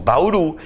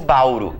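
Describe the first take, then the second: First: The stress is on the last syllable. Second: The stress is on the first syllable. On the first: The speaker calls it right. "eu digo bauru" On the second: The speaker calls it wrong. "eu não digo bauru"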